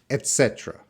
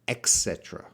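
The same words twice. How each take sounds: First: The first syllable is said with a plain t sound. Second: The first syllable is said with an x sound. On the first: The speaker calls it right. "So et" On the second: The speaker calls it wrong. "Sometimes an ex sound"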